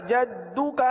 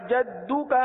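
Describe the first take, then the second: The two takes are said the same way.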